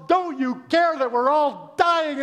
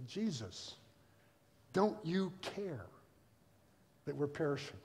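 First: High, loud, drawn-out mock panic; panicked yelling. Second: Subdued question. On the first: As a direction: yell it over the storm. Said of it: "they're yelling around". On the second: Retold or imitated. Reads disciples' question quietly.

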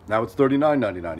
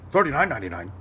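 First: Said in the usual way. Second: Imitating a stunned neighbour repeating a price; lightly voiced disbelief, in an altered voice; disbelieving echo.

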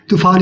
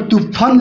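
First: तूफान with a long "aa" in the last syllable, "too-phaan"; long final vowel. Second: तूफान with short "a" in the last syllable, "too-phan"; short-vowel misreading. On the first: Teacher correcting the word for students, तूफान with long aa. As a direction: hold the aa open in तूफान. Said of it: "तूफान ही होता है". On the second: Teacher showing why the spelling sounds off, तूफान with short last vowel. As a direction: say तूफान with its long aa cut to "uh". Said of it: "सही नहीं लगेगा". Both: Shown as a demonstration.

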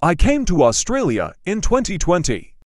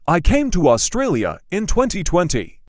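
No difference in how they are said.

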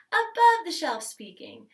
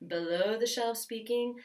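First: Higher and louder "above the shelf speaking". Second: Lower, relaxed "Below the shelf speaking". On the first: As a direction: lift it up bright and forward. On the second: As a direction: drop it down low and easy. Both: Shown as a demonstration.

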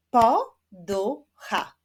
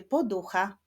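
First: "Poducha" in three slow, loud, separate beats; split into syllables. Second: Said in the usual way. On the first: Shown as a demonstration. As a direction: clap out "Poducha" slowly, syllable by syllable. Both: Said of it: "wyklaszczmy sylaby w wyrazie".

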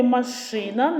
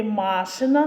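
First: «машина» stressed on и, ma-SHY-na; stress on second syllable. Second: «машина» stressed on the first а, MA-shyna; stress on first syllable. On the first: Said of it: "наголос падає на другий склад". (наголос на другий склад у слові «машина») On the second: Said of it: "наголос падає на перший склад". (наголос на перший склад у слові «машина») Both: Shown as a demonstration.

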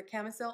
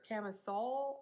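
First: "camisole" ending like the word sell; short final vowel. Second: "camisole" ending in a rounder aw sound; rounded final vowel. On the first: Tries two ways of saying it. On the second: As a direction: say "camisole" as "cami-soll". Corrects to other pronunciation. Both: Shown as a demonstration.

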